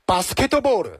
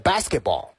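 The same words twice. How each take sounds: First: It is said with a Japanese accent. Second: It is said with an English accent. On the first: "日式发音呢就是" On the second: "英文呢是"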